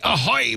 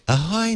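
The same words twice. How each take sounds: First: It is said in a rough, gruff pirate voice. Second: It is said in a plain, ordinary voice. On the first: "the gruff voice is optional" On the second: "it's just not going to have the same ring"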